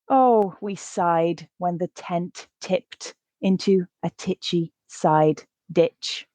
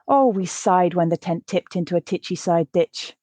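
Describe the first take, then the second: First: The sentence is read quite slowly. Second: The sentence is read at natural speed. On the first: "The first time, I'll read it quite slow" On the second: "The second time, I'll read it at a more natural pace"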